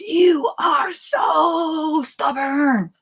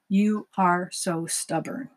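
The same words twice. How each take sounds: First: It is said with angry, frustrated inflection. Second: It is said in a neutral, flat tone.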